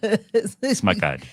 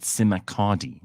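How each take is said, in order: First: The s and m run together without a vowel. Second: An extra vowel separates the s and m. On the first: The speaker calls it right. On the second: The speaker calls it wrong.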